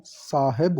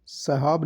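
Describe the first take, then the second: First: साहेब said as "saa-heb"; slow, careful "SAA-heb" for साहेब; correct pronunciation. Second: साहब said as "sahaab"; short first vowel, long second in साहब; wrong pronunciation. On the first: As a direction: lengthen the first vowel of साहेब, then "heb". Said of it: "साहेब होता है". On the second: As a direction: mistaken "sa-HAAB" for साहब. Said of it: "साहब नहीं". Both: Shown as a demonstration.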